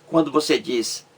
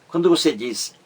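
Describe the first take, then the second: No difference in how they are said.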